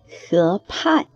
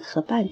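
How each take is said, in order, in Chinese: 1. 第二个音节的声母是送气的 p。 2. 第二个音节的声母是不送气的 b。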